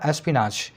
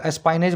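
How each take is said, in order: First: "एस्पिनाच" with short "pi" and long "naach" ending; correct pronunciation. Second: "एस्पाइनेज" with a long "pine" in the middle; common mispronunciation. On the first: Teacher correcting the common reading for students, correct pronunciation. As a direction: say "एस्पिनाच" lower and softer, es-pi-naach. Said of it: "लेकिन ये है क्या?". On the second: Teacher quoting how many people say it, mispronounced. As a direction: say "एस्पाइनेज", middle rhyming with "line", ending in -ej. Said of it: "इसको कई लोग एस्पाइनेज बोलते हैं". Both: Shown as a demonstration.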